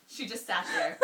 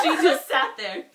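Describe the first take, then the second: First: High-pitched laughing read; giggling helplessly through the line. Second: Slow, loud laughing read; fighting the giggles. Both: Real, not acted. Cracking up mid-reading.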